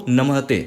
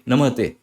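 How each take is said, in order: Both takes have the same delivery.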